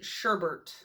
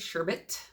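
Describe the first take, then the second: First: The second syllable has an extra R sound. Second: The second syllable has no extra R sound. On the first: "with an R, like a second R" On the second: "the appropriate and correct way to say"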